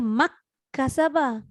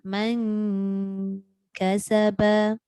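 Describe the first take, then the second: First: The n merges completely into the following k. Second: The n is hidden, a nasal sound near k. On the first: The speaker calls it wrong. "Tidak juga, sebab dia bukan idgham" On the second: The speaker calls it right. "jadi dia duduk tengah-tengah"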